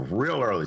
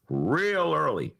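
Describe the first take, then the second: First: Said in the usual way. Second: "Real early" stretched out slowly; drawn-out emphasis. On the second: Real, not acted. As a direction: linger on "Real" before "early".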